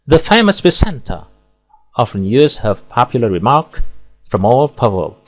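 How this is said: There are pauses only between whole phrases. The speaker calls it right. "Di sini pemenggalan tepat dan ideal. Di sini pemenggalan per frasa"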